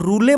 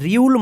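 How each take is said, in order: First: It ends with an extra 'ay' syllable. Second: A 'y' glide follows the r. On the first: "इसको रूले मत पढ़िएगा" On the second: "ये रूल रियूल मत पढ़िएगा"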